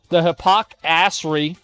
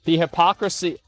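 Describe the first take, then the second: First: Slow, stretched hypocrisy with weight; hypocrisy said slowly, savoring the disgust; drawn-out emphasis. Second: Said in the usual way. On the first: Shown as a demonstration. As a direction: lean on the hypocrisy, dragging it out. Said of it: "repeated with emphasis". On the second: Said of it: "the hypocrisy repeated for effect".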